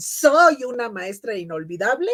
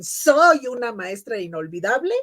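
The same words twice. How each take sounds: First: It is said as an emphatic exclamation. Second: It is said as an emphatic exclamation.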